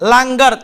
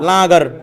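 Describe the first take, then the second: First: The nasal is a velar ng sound. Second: The nasal is only a nasalized vowel. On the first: The speaker calls it right. "হয়েছে লাঙ্গার" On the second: The speaker calls it wrong. "যদি নুনে গুণ হইতো তাহলে লাগার"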